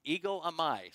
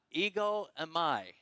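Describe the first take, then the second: First: Said in the usual way. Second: "Ego eimi" spoken slowly, each syllable clear; Greek pronunciation. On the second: Shown as a demonstration. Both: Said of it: "Say that with me".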